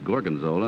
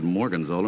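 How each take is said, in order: First: The word begins with a G sound. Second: The word begins with an M sound. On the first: The speaker calls it right. "and it's Gorgonzola" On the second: The speaker calls it wrong. "he mispronounced the name. He said Morganzola"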